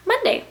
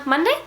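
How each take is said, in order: First: MONDAY starting high, then falling decisively; settled answer. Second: MONDAY rising sharply as a question; unsure question. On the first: Vlogger deciding which day it was, decided. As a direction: land Monday with a steep drop. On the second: Vlogger trying to recall the day, questioning. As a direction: ask Monday with a high upward lift. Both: Real, not acted.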